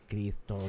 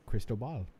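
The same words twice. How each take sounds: First: Spanish accent. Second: "Cristobal" in plain English sounds, correctly stressed; correct, without accent. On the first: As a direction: put on a careful Spanish accent. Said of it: "try to do an accent". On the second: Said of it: "Don't do an accent. Just say it correctly". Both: Shown as a demonstration.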